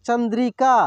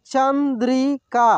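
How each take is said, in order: First: Said in the usual way. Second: Chandrika drawn out slowly, syllable by syllable; slow sounding out. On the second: Shown as a demonstration. Teacher slowly sounds out Chandrika for students. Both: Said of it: "एक एक मात्रा को अलग अलग करके".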